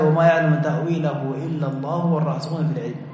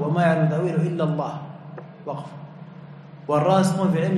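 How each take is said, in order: First: The phrase runs on without a pause after Allah. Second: There is a pause right after Allah. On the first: Those firm in knowledge also know its interpretation. "قراءة الوصل" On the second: Only God knows its true reality. "قراءة ثانية الوقف"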